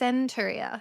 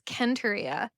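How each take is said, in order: First: The word begins with an S sound. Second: The word begins with a K sound. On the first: This is how it was first read. The speaker calls it wrong. "I read it as Centuria" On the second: This follows the original Japanese reading. The speaker calls it right. "the Japanese for this one is makes it read as Kenturia"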